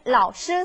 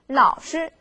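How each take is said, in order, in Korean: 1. 두 번째 음절은 본래 성조입니다. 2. 두 번째 음절은 가벼운 경성입니다.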